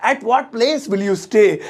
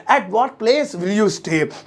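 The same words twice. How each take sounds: First: Slow, clear English; teacher modelling the sentence; spaced-out words; slow model sentence. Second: Very slow, word by word; stretched out; slow repeat. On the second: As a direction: drill it for the class. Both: Shown as a demonstration. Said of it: "तुम किस जगह रहोगे".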